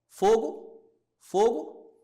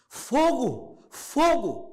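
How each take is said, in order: First: It is asked casually with a questioning tone. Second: It is shouted urgently as a fire alarm.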